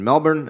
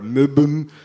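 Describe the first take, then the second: First: Melbourne is pronounced the American way. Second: Melbourne is pronounced the Australian way.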